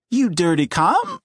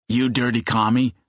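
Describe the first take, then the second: First: Voice cracking high. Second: Deep like his father. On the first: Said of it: "Eddie's voice cracked so high". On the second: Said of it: "his voice now deep like his father's". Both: A narrator's reading.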